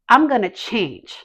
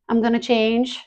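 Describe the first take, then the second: First: It sounds firm and fully convinced. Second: It sounds half-hearted and unconvinced. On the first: The speaker truly means it. The speaker calls it right. "I've had enough" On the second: The speaker does not really believe it. The speaker calls it wrong. "do you mean it?"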